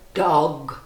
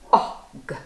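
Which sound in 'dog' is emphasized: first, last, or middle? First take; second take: first; middle. First: The first sound is drawn out and emphasized. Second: The middle vowel is drawn out and emphasized. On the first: "So what does it start with? Let's listen" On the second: "And the middle letter"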